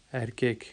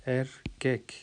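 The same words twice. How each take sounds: First: Said in the usual way. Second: ایرکیک split as Er... kek, with a pause; broken into syllables. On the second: Shown as a demonstration. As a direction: break ایرکیک into two slow pieces, Er and kek. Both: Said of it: "جس طرح سے آپ توڑ کے".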